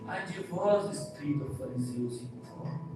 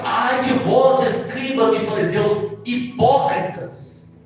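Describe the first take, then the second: First: It is said timidly and weakly. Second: It is said boldly and forcefully.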